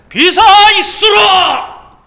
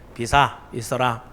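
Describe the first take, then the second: First: It is shouted very loudly. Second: It is said softly and quietly. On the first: The speaker calls it right. "아주 크게 딱 소리 지르니까" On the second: The speaker calls it wrong. "나긋나긋하게 조용하게 이렇게 말씀 안 하셨을 거"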